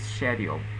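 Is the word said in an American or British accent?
British. The word is said in a British accent. "The British pronunciation is schedule"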